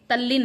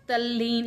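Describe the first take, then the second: First: तल्लीन with short i, "tallin"; wrong vowel. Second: तल्लीन with long ee, "talleen"; correct vowel. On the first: Teacher rejecting the misspelling, तल्लीन as short "tallin". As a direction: say तल्लीन with a brief last vowel. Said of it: "तल्लीन नहीं". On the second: Teacher showing the right spelling, तल्लीन with long ee. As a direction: say तल्लीन with a held "lee". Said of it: "तल्लीन इस प्रकार से लिखा जाता है". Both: Shown as a demonstration.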